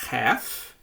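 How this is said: It is said with an American pronunciation. "um pouco mais americanizada"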